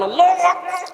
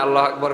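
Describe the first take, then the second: First: It is said in a harsh, forceful voice. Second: It is said in a soft, gentle voice.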